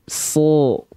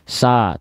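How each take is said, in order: First: The vowel is a dark sound leaning toward 'o'. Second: The vowel is a clear, thin 'a' sound. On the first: The speaker calls it right. "tapi kita lafalkan dia so. Keluarnya akan condong kepada kepada vokal o" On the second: The speaker calls it wrong. "kita tidak lafalkan dia sa"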